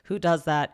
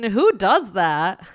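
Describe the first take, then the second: First: It is said flatly, without emphasis or feeling. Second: It is said with strong emphasis and feeling. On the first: The speaker's reaction is unclear. The speaker calls it wrong. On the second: The speaker finds the behavior shocking. The speaker calls it right.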